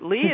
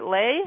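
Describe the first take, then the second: First: The name is said with an 'ee' vowel. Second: The name is said with an 'ay' vowel. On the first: "is it Lee?" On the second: "Is it Lay?"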